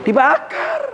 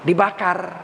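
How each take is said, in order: First: Shouted dibakar. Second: Said in the usual way. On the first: Shown as a demonstration. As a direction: fling out "Dibakar" in a high shout.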